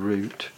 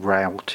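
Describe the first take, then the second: First: It is said with a British pronunciation. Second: It is said with an American pronunciation.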